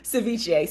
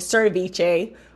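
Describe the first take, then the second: First: No r sound follows the first vowel. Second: An r sound follows the first vowel. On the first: The speaker calls it right. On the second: The speaker calls it wrong.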